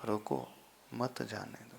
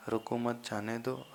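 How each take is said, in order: First: "रुको" falling, short pause, then "मत जाने दो" together; pause after रुको. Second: "रुको मत" as one unit, then "जाने दो"; group रुको with मत, then say जाने दो; pause after मत. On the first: Teacher repeating the contrast for students, pause after रुको. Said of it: "जहां रुकना था". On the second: Teacher repeating the contrast for students, pause after मत. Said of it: "यहाँ comma की बात ही नहीं". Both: Shown as a demonstration.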